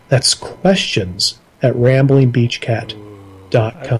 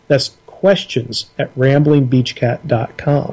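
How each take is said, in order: First: It is said in a low, sultry voice. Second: It is said in a plain, normal voice.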